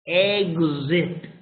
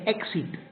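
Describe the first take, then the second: First: The x is sounded as gz. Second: The x is sounded as ks. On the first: The speaker calls it right. "the correct pronunciation is g, z" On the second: The speaker calls it wrong. "they pronounce with a K and a S"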